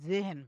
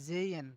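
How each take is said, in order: First: The middle h is clearly sounded. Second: The h is silent and the vowel lengthened. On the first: The speaker calls it wrong. "আমরা কিন্তু জেহেন বলি" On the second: The speaker calls it right. "ভাওয়েলটা লম্বা করে প্লাস এইচটা প্রায় উচ্চ থাকে"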